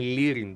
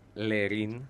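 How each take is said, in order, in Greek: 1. Το όνομα αρχίζει με 'Li', με τόνο στην αρχή. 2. Το όνομα αρχίζει με 'Le', με τόνο στο τέλος. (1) "είναι Λίριν Ντουάρτε" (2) "δεν είναι Λερίν"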